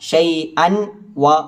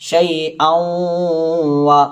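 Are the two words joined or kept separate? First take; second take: separate; joined. First: The n is said clearly before a separate wa. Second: The n merges nasally into the following wa. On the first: The speaker calls it wrong. "എന്ന സ്ഥലത്ത്" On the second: The speaker calls it right. "ചേർക്കുക, അതിനുശേഷം മണിക്കുക"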